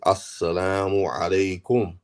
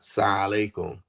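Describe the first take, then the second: First: Every syllable of the greeting is clearly said. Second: The opening syllables are dropped or slurred. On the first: The speaker calls it right. "saying it correctly" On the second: The speaker calls it wrong. "not sa alaikum ... not like that"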